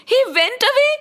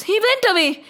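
First: High, rising incredulous question; stunned questioning; shocked disbelief. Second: Said in the usual way. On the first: Acted. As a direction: echo it back aghast, pitched way up. Krishna echoes it in disbelief.

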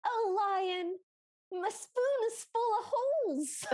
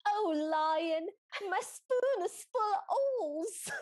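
First: High, loud pleading wail; a hammed-up sobbing plea; whiny girl voice. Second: Loud, rising whiny plea; hammed-up pleading wail. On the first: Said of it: "And then she goes". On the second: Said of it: "it's exactly what it sounded like".

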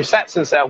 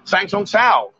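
First: "Satsang Sao" with a t closing the first syllable; corrected place name. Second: "Sangsong Sao" with an ng ending both first syllables; mispronounced place name. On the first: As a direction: say "Satsang Sao", crisp t before the second s. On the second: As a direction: say "Sangsong Sao", rhyming the second syllable with song. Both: Real, not acted. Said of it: "how do you say that?".

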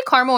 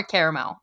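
First: "caramel" as CAR-mul, two syllables. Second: "caramel" as CARE-uh-mel, three syllables. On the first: Host asking co-host which she says, "caramel" as CAR-mul. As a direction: open AH in "caramel", middle vowel dropped. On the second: Host offering co-host the alternative, "caramel" as CARE-uh-mel. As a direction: sound every syllable of "caramel", CARE first. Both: Shown as a demonstration. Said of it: "Do you say caramel or caramel".

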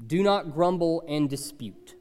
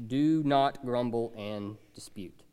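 First: Said in the usual way. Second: Slow unvoiced whisper; hushed, slow whispered repeat. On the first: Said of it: "the first point is this". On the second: Shown as a demonstration. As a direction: breathe the command out slowly.

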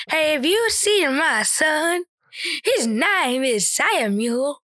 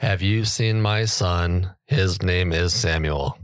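First: Slow, higher, rising robot line; meme robot voice. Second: Slow, deadpan robot-like reading; attempted robot voice. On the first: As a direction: drag it out like a glitchy robot. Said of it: "demonstrate how you say it". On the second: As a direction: read it like a flat robot. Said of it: "I tried to do it in a robot voice". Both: Shown as a demonstration.

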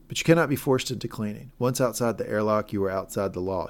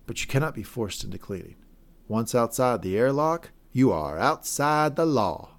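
First: Said in the usual way. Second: Mayor John. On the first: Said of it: "She would say it like this". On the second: Retold or imitated. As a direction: imitate a twang, stretching out the last phrase. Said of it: "She had a certain twang to it".

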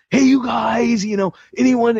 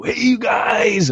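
First: High, loud eager call to the group; super excited. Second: High, slow, joyful shout; joyful greeting. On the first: Youth leader inviting prayer requests, excited high call. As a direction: call out brightly, hoping someone shares. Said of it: "super ex-, excited". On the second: Youth leader greeting the kids, joyful high shout. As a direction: belt out a cheery hello to the whole room. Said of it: "he was so filled with joy". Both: Retold or imitated.

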